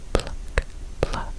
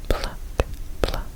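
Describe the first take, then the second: No difference in how they are said.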